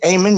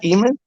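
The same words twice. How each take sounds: First: "Ayman" as AY-mun; "Ayman" with rising, questioning end; Ayman checked aloud. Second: "Eamon" as EE-mun; "Eamon" with ee in place of ay; Eamon, the mistaken reading. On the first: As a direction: say "Ayman" starting with an ay sound. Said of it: "So that's how you say it?". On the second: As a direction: say "Eamon" starting with a long ee. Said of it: "not Eamon?". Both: Shown as a demonstration.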